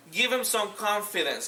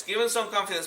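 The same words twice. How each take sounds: First: Slowed down, stress on them; slow emphatic repeat. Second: Said in the usual way. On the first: Shown as a demonstration. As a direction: spell it out slowly, leaning on them.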